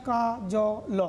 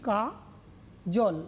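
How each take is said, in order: First: "কা, জ, ল" with জ and ল split apart, each sound said alone; syllable by syllable. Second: "কা, জল" with জল joined as one closed syllable; correct syllables. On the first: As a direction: break "কা, জ, ল" into three separate beats. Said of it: "কখনো বলছি না". ("কা, জ, ল" আলাদা আলাদা করে ভেঙে বলা) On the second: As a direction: say "কা" then "জল" in one beat, ending on ল. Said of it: "বলছি". ("কা, জল" দুই দলে, জল একসাথে) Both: Shown as a demonstration.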